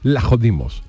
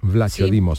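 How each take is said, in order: First: The name begins with an L sound. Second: The name begins with a V sound. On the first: "la pronunciación de Vlachodimos es Lajodimos" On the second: "se escribe Vlachodimos"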